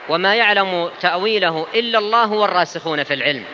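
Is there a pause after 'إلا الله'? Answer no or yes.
no. It runs on without a pause after 'إلا الله'. Those firm in knowledge also know its meaning. "القراءة الأخرى"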